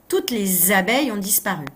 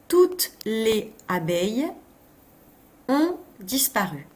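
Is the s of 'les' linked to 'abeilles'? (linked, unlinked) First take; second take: linked; unlinked. First: Les and abeilles are joined with a linking z. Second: Les and abeilles are said without a linking z. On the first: The speaker calls it right. "Et oui, toutes les abeilles" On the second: The speaker calls it wrong. "où j'aurais pu faire la liaison?"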